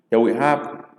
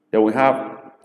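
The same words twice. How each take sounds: The two takes are said the same way.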